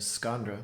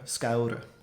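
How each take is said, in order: First: An n sound is heard before the r. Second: No n sound is heard before the r. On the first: "which you might think it should sound like" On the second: "Scaura instead"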